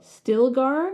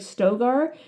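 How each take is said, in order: First: The name is said with an L sound. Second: The name is said without an L sound.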